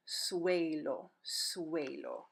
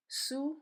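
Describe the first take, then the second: First: "suelo" blended as SWAY-lo; U and E joined into a W glide in "suelo"; W sound. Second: "Suelo" broken into soo, eh, lo; slow teaching demo of "Suelo"; slowed down, syllable by syllable. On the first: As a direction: say "suelo" with a W after the S. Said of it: "It sounds like a W". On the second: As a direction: draw out "Suelo" with long gaps between sounds. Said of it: "don't say it slow and weird". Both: Shown as a demonstration.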